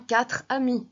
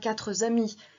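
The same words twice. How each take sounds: First: The words join without any added z sound. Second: A z sound is added between the words. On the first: The speaker calls it right. "On dira bien" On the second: The speaker calls it wrong. "ce qui amène à faire une fausse liaison"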